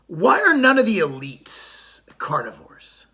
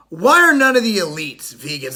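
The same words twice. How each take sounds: First: Slow, hushed whisper of a secret question. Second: Said in the usual way. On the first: Acted. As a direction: lean in and whisper it like a conspiracy. Rhetorical question to the audience.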